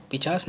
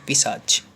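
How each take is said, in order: First: पिचास with "ch" first, "s" last; wrong pronunciation. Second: पिशाच as "pi-saach", ch at the end; correct pronunciation. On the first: Teacher rejecting a wrong word, पिचास with swapped consonants. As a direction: say "pi-chaas" for पिचास. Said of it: "ये गलत शब्द है". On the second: Teacher correcting the class, पिशाच ending in ch. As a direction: put the ch last in पिशाच. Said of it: "पिचास नहीं". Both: Shown as a demonstration.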